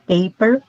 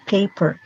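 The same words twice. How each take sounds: First: The p has no puff of air. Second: The p has a puff of air. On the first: This is the Philippine English form. "a lack of aspirated consonant" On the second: This is the standard source form. "the aspirated form"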